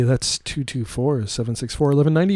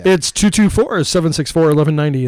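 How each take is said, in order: First: Slow, clearly spaced digits. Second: Said in the usual way. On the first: Shown as a demonstration. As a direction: spell out the number slowly. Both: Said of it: "what's the hotline number".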